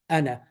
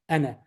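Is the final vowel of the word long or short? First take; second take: short; short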